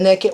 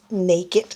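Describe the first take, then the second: First: The word is said in a nonstandard, personal pronunciation. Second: The word is said in the standard pronunciation. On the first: The speaker calls it wrong. "I know I'm saying that wrong" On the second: The speaker calls it right. "It's naked"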